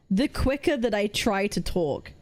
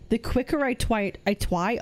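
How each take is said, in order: First: Said in the usual way. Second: Real slip, "twi-" cut off and restarted; tongue-tied stumble. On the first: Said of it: "if I slowed down my speaking". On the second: Real, not acted. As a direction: trip on "try", saying it as "twi-".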